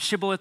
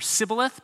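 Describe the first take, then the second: First: The word begins with a sh sound. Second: The word begins with an s sound. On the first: The speaker calls it right. "there's a sh sound in Hebrew" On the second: The speaker calls it wrong. "and there's a s sound"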